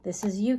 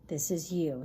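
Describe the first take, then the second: First: Whispered, leaning in; telling Capricorn its card, whispered. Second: Said in the usual way. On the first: Real, not acted. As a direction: hush it like a secret. Pointing out the Devil card.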